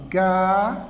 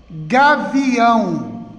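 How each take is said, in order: First: "Gavião" split into ga, vi, ão with pauses; syllable by syllable. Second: "Gavião" said slowly as one connected word; whole word, drawn out. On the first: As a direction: separate each syllable of "Gavião", ending on a long ão. ("Gavião" separado em sílabas: ga - vi - ão) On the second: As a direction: stretch "Gavião" without breaking it. ("Gavião" lento, numa palavra só) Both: Shown as a demonstration. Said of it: "A separação".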